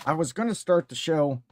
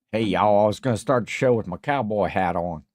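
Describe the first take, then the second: First: Said in the usual way. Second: Lightly put-on Southern accent; playful hint of a Southern cowboy accent. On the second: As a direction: greet them like a mock Southern cowboy. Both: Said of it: "I don't know why I'm talking like this".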